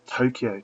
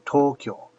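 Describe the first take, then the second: First: "Tokyo" said toe-kee-oh, three syllables; "Tokyo" as English speakers say it; anglicized Tokyo. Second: "Tokyo" with kyo as one syllable, toh-kyo; "Tokyo" the Japanese way, two beats. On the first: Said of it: "so for instance". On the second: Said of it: "The actual kyo". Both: Shown as a demonstration.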